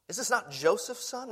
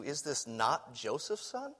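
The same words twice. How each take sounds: First: Higher, rising, doubting; scoffing rhetorical question; incredulous question. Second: Soft, low wondering question, almost to yourself; murmured puzzled aside; hushed musing question. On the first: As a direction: lift it in disbelief, stress on not. Repeating the townspeople's question. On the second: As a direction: quietly turn the question over. Pondering the townspeople's question. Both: Retold or imitated.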